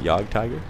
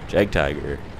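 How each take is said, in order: First: The first word starts with a Y sound. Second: The first word starts with a J sound. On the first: "Is it Yog Tiger?" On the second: "Is that how you pronounce it?"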